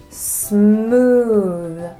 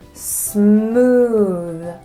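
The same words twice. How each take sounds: First: The S and M are joined together. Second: The same.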